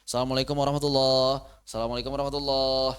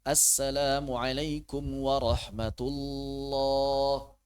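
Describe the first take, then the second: First: Swallowed syllables, fast; rushed salam. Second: Drawn-out, unhurried salam; slow salam. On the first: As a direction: gabble the salam carelessly. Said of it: "Aduh, bahaya ini". (salam terburu-buru yang salah) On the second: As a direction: take your time with the greeting. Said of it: "Jangan buru-buru". (salam pelan tidak terburu-buru) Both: Shown as a demonstration.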